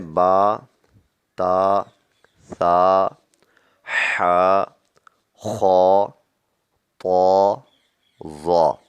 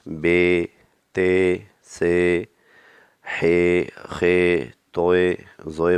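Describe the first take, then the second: First: The letter names are said with Arabic pronunciation. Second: The letter names are said with Urdu pronunciation.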